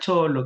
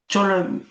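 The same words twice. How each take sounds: First: It sounds warm and affectionate. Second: It sounds scornful, trailing off pointedly. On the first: The word is used as a friendly endearment. "no insulta, sino acaricia" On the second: The word is used as an insult. "Ahí tiene otra connotación"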